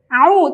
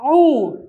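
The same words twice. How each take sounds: First: The ain is said light, not thick. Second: The ain is said thick and heavy. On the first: The speaker calls it right. "Ain tidak boleh tebal" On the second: The speaker calls it wrong.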